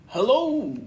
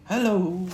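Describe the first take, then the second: First: Much higher, louder bouncy Tigger "Hello"; Tigger's hello. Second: Gentle Pooh hello, a touch higher; Pooh's hello. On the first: Tigger answers Pooh's greeting. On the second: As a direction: greet him kindly as Pooh. Pooh greets Tigger. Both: Acted.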